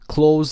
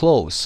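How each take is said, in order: First: The word ends with a buzzing Z sound. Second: The word ends with a hissing S sound. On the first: It means to shut, as a verb. "اونجا صدای ز داره" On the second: It means near, as an adjective. "اونجا صدای س داریم"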